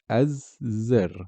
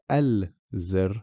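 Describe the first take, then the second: First: The 'l' is skipped and the z is doubled. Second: An 'l' sound is pronounced before the z. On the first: The speaker calls it right. "we are saying az-zir" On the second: The speaker calls it wrong. "we're not saying al-zir"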